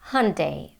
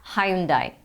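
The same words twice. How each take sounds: First: It is said with an American pronunciation. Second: It is said with a British pronunciation. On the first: "This is how they say in the U S" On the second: "in British English they say it completely differently"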